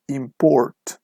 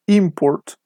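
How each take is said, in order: First: ImPORT, second syllable stretched slowly; verb stress. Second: IMport, high first syllable, falling away; noun stress. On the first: Teacher shows students the verb form, slow stress on PORT in "import". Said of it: "the stress is on the second syllable". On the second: Teacher shows students the noun form, stress on IM in "import". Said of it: "the stress is on the first syllable". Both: Shown as a demonstration.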